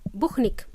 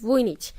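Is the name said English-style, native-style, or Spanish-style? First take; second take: Spanish-style; native-style. First: The name is said as Spanish speakers say it. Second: The name is said in its own native way. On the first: The speaker calls it wrong. "my Spanish friends, they pronounce my name as" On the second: The speaker calls it right. "So it's none of those. It's"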